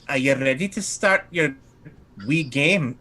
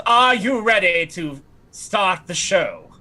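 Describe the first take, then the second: First: Put-on lilting accent meant for Madame Dimitri; lightly put-on accent, the wrong one; wrong character accent. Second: High, slow, grand character voice; theatrical invitation, pitched up and unhurried; Lysinopril. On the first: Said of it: "I'm doing the wrong accent". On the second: Acted. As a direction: draw it out like a stage performer. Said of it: "So Lysinopril, she says".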